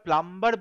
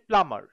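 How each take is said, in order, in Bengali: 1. 'm'-এর পরে একটি 'b' উচ্চারণ করা হয়। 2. 'm'-এর পরে কোনো 'b' উচ্চারণ করা হয় না। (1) "আমরা প্লাম্বার বলি ঠিকই" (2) "বাট আসলে কথা হচ্ছে প্লামার"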